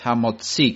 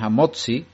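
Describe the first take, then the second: First: The stress falls on the last syllable. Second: The stress falls before the last syllable. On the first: The speaker calls it right. "con el acento en la i" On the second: The speaker calls it wrong. "muchos se equivocan y dicen Hamotzi, y no es correcto, es una forma americana de decir"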